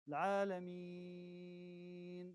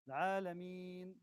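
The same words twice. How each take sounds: First: The long vowel is held for six beats. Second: The long vowel is held for four beats. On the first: "this is six" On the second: "this is four"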